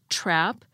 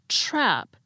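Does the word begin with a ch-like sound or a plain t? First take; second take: plain t; ch-like. First: It begins with a plain t sound. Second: It begins with a ch-like sound. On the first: "Instead of saying" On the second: "I'm saying"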